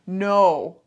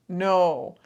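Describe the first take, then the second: The two takes are said the same way.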